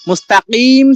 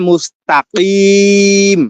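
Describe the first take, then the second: First: The vowel before the final m is held briefly. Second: The vowel before the final m is stretched long. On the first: The recitation continues without stopping. "মুস্তাকিম ছিল" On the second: The reciter stops at this word. "থামলে"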